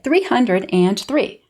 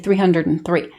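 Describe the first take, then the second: First: The word "and" is said in full. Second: The word "and" is reduced to an n sound. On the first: "I don't say three hundred three" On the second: "just that little n sound instead of the full and"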